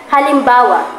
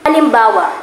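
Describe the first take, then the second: No difference in how they are said.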